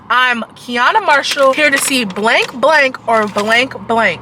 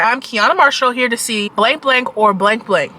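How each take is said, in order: First: The sentence is said slowly and deliberately. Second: The sentence is said at a normal pace.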